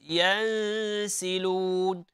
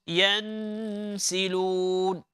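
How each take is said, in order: First: The n sound is hidden, not nasal. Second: The n sound comes strongly through the nose. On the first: The speaker calls it right. "With ikhfa, it's hidden" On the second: The speaker calls it wrong. "one is directly coming from the nose"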